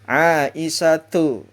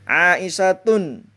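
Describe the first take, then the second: First: The word ends on a vowel without n. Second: The word ends with an added n sound. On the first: The speaker calls it right. "Tidak boleh ditanwinkan" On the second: The speaker calls it wrong. "tidak boleh dibaca seperti ini"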